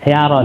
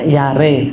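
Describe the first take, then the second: First: The final vowel is an open a sound. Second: The final vowel is a middle e sound. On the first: "yaro itu kan fathah gitu" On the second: "Yare jadi tengah-tengah e"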